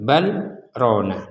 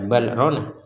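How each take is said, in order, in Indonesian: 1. Ada jeda singkat setelah bal. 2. Kedua kata itu diucapkan menyambung tanpa jeda. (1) "dibaca bal, berhenti sebentar, rona" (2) "Jangan dibaca bal rona"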